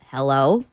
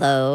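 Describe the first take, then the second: First: The voice rises at the end like a question. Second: The voice trails off hesitantly at the end.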